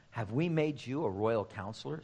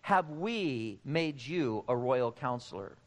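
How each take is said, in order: First: Said in the usual way. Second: "we" drawn out and emphasized in a slow question; slow delivery, weight on "we"; stress on "we". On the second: Shown as a demonstration. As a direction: slowly lean on the word "we". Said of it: "He didn't say, "Have I?".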